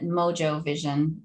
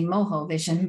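First: Mojo is pronounced the English way. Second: Mojo is pronounced the Spanish way. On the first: This is how the company says its name. "I'm assuming they pronounce it Mojo Vision" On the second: This is how a Spanish speaker would say the name.

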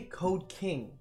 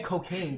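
First: The two words are said slowly and separately. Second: The two words are rushed together into one.

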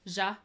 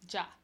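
First: It begins with a soft zh sound. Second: It begins with a hard j sound. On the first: The speaker calls it wrong. "you're using more of the like Zha, which is like the X sound" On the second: The speaker calls it right. "With a J sound"

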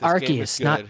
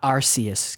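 First: The start of the word does not sound like 'arse'. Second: The start of the word sounds like 'arse'. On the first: The speaker calls it right. "I think it's Arceus" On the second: The speaker calls it wrong. "not Arceus, because they don't want you to say the word arse"

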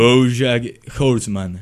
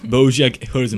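First: The name is said more slowly. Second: The name is said at normal speed.

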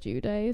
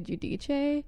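First: The name is pronounced with Americanized sounds. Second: The name is pronounced with Italian sounds. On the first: "they also said Giudice" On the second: "the real Italian way is to say Giudice"

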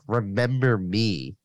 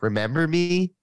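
First: It is said as a statement, falling. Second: It is said as a question, rising.

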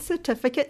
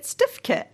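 First: All syllables of the word are pronounced. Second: The word is cut down to two syllables. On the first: This is the standard form. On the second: This is how a young child said it.

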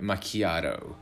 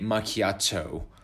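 First: The t sounds soft, like a d or r. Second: The t sounds like a crisp, clear t. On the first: "It sounds very American because you are turning the T into more of a D or R sound" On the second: "Someone with a more maybe Northern American or English accent could say macchiato"

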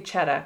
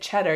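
First: The word ends without an r sound. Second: The word ends with an r sound.

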